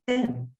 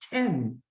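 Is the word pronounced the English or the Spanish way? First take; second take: Spanish; English. First: It has the Spanish pure e vowel. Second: It has the English short e vowel. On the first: It does not mean the number ten. "In Spanish, I say ten" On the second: It means the number ten. "So in English, I say ten"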